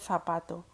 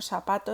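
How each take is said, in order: First: The first consonant sounds like th. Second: The first consonant sounds like s.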